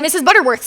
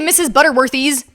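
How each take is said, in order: First: No extra vowel is added before the final s. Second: An extra vowel is added before the final s. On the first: The speaker calls it right. "It belongs to her" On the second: The speaker calls it wrong. "Why would you add an e to that?"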